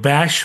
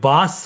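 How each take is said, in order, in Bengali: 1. এটি 'sh' ধ্বনিতে শেষ হয়, bash-এর মতো। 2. এতে খোলা 'a' স্বরধ্বনি আছে, bus-এর মতো। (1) "কেউ ব্যাশ বলে" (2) "কেউ বাস বলে"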